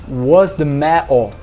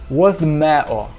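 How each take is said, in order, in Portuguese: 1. É dito com sotaque mancuniano. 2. É dito com sotaque mancuniano.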